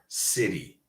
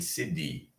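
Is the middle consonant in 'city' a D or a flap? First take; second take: flap; D. First: The middle consonant is a quick flap. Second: The middle consonant is a full D sound. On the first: The speaker calls it right. "When I say words like water, city, internet, printer, I am not pronouncing a D" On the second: The speaker calls it wrong. "I am not saying city"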